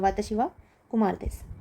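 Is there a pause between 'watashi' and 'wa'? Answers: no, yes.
no. 'Watashi' and 'wa' run together without a break. The speaker calls it right. "वाताशी के साथ ही जोड़कर बोलना है"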